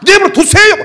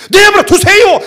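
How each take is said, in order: First: The same bratty retort again, mocked high and loud; sassy retort. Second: Mock bratty kid talking back, high and loud; sassy retort. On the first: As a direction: replay the cheeky kid to show the insolence. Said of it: "이 새끼가". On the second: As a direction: imitate a defiant son snapping back at dad. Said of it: "이런다니까, 나보고".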